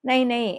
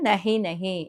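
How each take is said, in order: First: The middle h sound is dropped, giving nai. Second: The middle h sound is kept, giving nahi. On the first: This is the casual spoken form. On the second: This is the full standard form.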